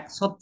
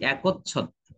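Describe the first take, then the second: First: No vowel follows k; a single chh sound. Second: An o vowel follows k; a doubled chh. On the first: The speaker calls it wrong. "আমি একছত্র বলছি না" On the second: The speaker calls it right. "আমি বলছি একচ্ছত্র"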